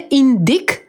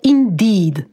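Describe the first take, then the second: First: The final consonant is voiceless and sharp. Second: The final consonant is fully voiced. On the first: The speaker calls it wrong. "Nie indeed" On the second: The speaker calls it right. "tylko indeed"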